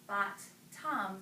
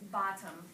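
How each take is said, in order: First: The word is split into two separate syllables. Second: The word is said smoothly as one natural unit.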